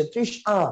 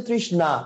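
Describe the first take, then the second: First: "ত্রিশ আ" said with no n, a bare "aa" after trish; ভুল উচ্চারণের নমুনা. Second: "ত্রিশ না" said trish-naa, with a clear n; সঠিক উচ্চারণ. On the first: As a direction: read "ত্রিশ আ" as trish-aa, dropping the n. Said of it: "তখন উচ্চারণটা কি হচ্ছে". ("ত্রিশ আ" ন ছাড়া, শুধু আ দিয়ে উচ্চারণ) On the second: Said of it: "উচ্চারণটা হচ্ছে". ("ত্রিশ না" স্পষ্ট ন দিয়ে উচ্চারণ) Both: Shown as a demonstration.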